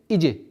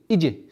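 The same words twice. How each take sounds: No difference in how they are said.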